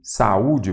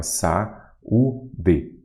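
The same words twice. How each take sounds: First: Said in the usual way. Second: "Saúde" split into three separate syllables. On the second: Shown as a demonstration. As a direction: say "Saúde" in pieces, sa, ú, de. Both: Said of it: "vamos separar em sílaba".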